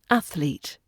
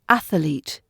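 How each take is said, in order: First: No extra vowel is added in the middle. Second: An extra vowel is added in the middle. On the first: The speaker calls it right. "the correct pronunciation" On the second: The speaker calls it wrong. "add an extra A sound in the middle of the word athlete"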